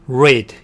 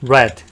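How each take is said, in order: First: It is said with the present-tense vowel sound. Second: It is said with the past-tense vowel sound. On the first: The action is the base form, not past. "동사 원형으로 쓰였을 때는 read 이런 발음인데" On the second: The action happened in the past. "과거형에서는 read가 아니라 read"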